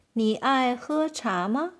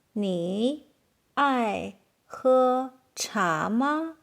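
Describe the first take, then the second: First: Said in the usual way. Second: Slow question with gaps between words. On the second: Shown as a demonstration. Teacher asking learners about tea, slow and word by word.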